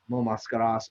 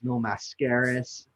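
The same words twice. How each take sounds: First: The name is said with a Spanish accent. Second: The name is said with an American English accent.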